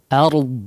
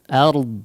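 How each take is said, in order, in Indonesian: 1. Vokalnya adalah bunyi a yang ringan dan terbuka. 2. Vokalnya adalah bunyi a yang ringan dan terbuka.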